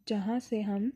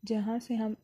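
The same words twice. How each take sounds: The two takes are said the same way.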